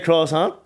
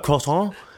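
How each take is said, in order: First: It is said with a plain English accent. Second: It is said with a put-on French accent. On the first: The speaker sounds ordinary. The speaker calls it right. "Why can't you just say croissant?" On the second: The speaker sounds pretentious. The speaker calls it wrong. "people put on a fucking accent when they're ordering something"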